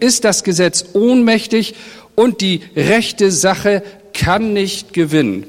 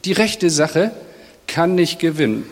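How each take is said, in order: First: Raised, urgent quoting of Habakuk's complaint; pleading outcry, pitched higher; impassioned prophet lament. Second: Softer, sunk-down murmur to God; hushed helpless lament; quiet resigned prayer. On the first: Retold or imitated. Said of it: "er sagt". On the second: Acted. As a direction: let it fall, like a tired prayer.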